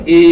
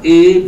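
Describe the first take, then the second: First: "a" said short and cut off; short vowel. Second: "a" held long and falling; long vowel. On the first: Teacher demonstrating the plain vowel letter, short "a". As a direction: say a brief "a". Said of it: "A is called a". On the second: Teacher demonstrating A with ba, long "a". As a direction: draw out "a". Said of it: "A ba is called a". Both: Shown as a demonstration.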